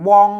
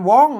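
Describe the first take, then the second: First: The syllable has a mid tone. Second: The syllable has a high tone. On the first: "สามัญนะครับ" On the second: "ได้เสียงตีมัน"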